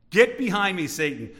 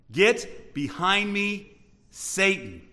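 First: Quicker command with a forceful GET; brisk rebuke. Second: Drawn-out, heavily spaced command; slow rebuke. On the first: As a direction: hit GET hard, then drop on SATAN. Same rebuke, said faster. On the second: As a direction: stretch GET and BEHIND, pause before SATAN. Jesus rebuking Peter, first take. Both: Acted.

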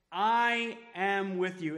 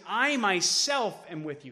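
First: Slow, each word weighted, I am with you; emphatic. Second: I myself am with you, louder, I stressed. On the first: Pastor voicing Jesus to disciples, slow and emphatic. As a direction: stretch out I am with you. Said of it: "Jesus is being emphatic". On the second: Pastor stressing Jesus' promise, emphatic. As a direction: lean on I and myself. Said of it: "He uses the word "I" twice". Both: Shown as a demonstration.

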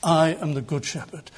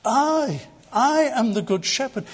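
First: Low-pitched, savouring declaration; relishing the thought. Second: "I" held alone and pitched high, then repeated; stress on I. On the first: Retold or imitated. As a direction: savour the claim in a lowered pitch. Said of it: "It's almost as if he's relishing the thought". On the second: Shown as a demonstration. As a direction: lean hard on the pronoun "I". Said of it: "you'll notice the emphasis on the personal pronoun".

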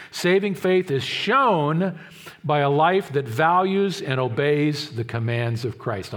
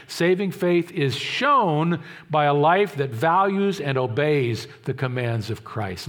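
First: Slow, weighty delivery on "shown"; stated slowly like a key principle; slow emphatic statement. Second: Slow, deliberate restatement stressing "shown"; slow emphatic repeat. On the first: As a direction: lean hard on "shown" and "values". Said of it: "I'll put it in a different phrase". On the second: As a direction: say it again slower, pressing "shown". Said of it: "I'll say it again". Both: Shown as a demonstration.

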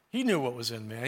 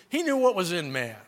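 First: Soft echo. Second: Said in the usual way. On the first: Acted. Preacher repeats the truth to the church, hushed and low. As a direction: lower and softer, letting the line sink in. Repeated line, echoed softly.

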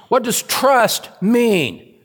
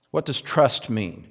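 First: High, slow stress on "trust mean"; "trust mean" drawn out high, as a preacher's challenge; emphatic question. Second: Said in the usual way. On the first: Real, not acted. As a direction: stretch out "trust mean" at a raised pitch.

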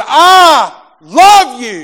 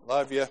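First: Higher, louder, very slow, stretched out; drawn-out insistent love you. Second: Much softer, lower, tossed-off mumble; offhand mumbled love you. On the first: Wife correcting her husband at the door, slow loud insistence. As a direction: stretch each word so he hears you mean it. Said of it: "exactly how she said it to me". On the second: Husband mumbling goodbye to his wife, offhand and soft. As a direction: throw it away like a husband half out the door. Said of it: "I'll have to say it exactly how". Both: Retold or imitated.

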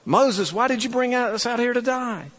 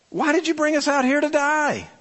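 First: Higher, whining grumble at Moses; lightly hammed-up complaint; mock whiny complaint. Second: High, fast whining grumble; hammed-up complaining Israelites; mock whiny complaint. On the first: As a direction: whine it like a grumbling crowd. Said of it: "It's like". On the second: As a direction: whine it like an ungrateful crowd. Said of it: "they're like".

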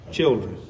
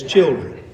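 First: Put-on Children dropped low and soft, tender; tender endearment. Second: Said in the usual way. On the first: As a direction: linger on children like a loving father. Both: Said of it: "this is a term of endearment".

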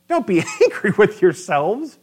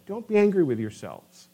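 First: A real laugh breaks up the verse; laughing through it. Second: Said in the usual way. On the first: Real, not acted. Preacher laughing as he repeats Joseph's line. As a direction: chuckle as you repeat it.

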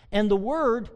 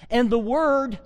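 First: Said in the usual way. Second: "Word" said higher and louder; stress on Word. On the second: Shown as a demonstration. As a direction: build up to "the Word". Reading scripture with weight.

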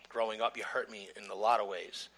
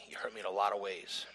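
First: Said in the usual way. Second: Breathy whisper, barely voiced, falling at the end; whispered hurt. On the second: Speaking to his father, a hushed, wounded whisper. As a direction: let the hurt slip out in a whisper.

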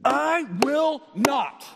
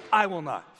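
First: "I will not" high, loud and slow, word by word; drawn-out, forceful "I will not"; most emphatic. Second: "I will not" firmly, falling at the end; emphatic refusal. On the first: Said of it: "Three words that are the most emphatic". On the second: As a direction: land "I will not" as a firm declaration. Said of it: "it's emphatic". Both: Acted.

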